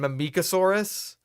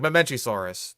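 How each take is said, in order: First: The middle is said with a 'k' sound. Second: The middle is said with a 'ch' sound. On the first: The speaker calls it wrong. "that's just all wrong" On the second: The speaker calls it right. "Like Mamenchisaurus. It's not hard"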